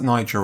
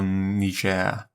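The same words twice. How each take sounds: First: Niger as NYE-jer; English pronunciation. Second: Niger as nee-ZHAIR; French pronunciation. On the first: Crossword solver unsure of the country's name, Niger said NYE-jer. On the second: Crossword solver trying the other name for the country, Niger said nee-ZHAIR. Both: Shown as a demonstration. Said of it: "pronounce this".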